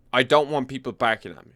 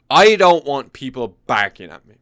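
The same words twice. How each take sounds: First: Said in the usual way. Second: Louder, punching "I" and "don't"; emphatic. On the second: Real, not acted. To the viewers, loudly refusing a rowdy wedding. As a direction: hit "I don't want people barking at me" hard.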